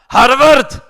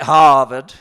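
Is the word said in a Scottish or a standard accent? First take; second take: Scottish; standard. First: It is said in a Scottish accent. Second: It is said in a standard accent.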